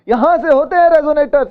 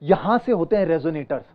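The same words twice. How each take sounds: First: The voice resonates from the throat. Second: The voice resonates deep in the chest. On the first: "अभी मैं गले से" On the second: "ये हमारी chest है"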